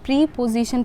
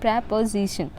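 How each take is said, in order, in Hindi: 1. शब्द 'pree' की लंबी आवाज़ से शुरू होता है। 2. शब्द 'prep' की छोटी आवाज़ से शुरू होता है। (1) "गलत है" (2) "करेक्ट प्रोनाउंसिएशन"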